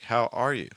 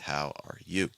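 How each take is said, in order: First: The word are is stressed with higher pitch. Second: The word you is stressed with higher pitch. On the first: "If I stressed R, it would sound like" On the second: "I stressing you in that case"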